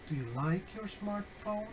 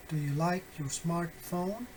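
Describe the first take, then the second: First: LIKE is the focus, "your smartphone" trails softer; softer model question focused on LIKE; stress on LIKE. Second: LIKE and SMARTPHONE stressed, rising question end; stress on content words. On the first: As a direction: put the question's weight on "like". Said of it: "assigning stress or emphasis to the new content words". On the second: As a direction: stress both "like" and "smartphone", lift the ending. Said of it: "assigning emphasis, uh, to the content words". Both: Shown as a demonstration.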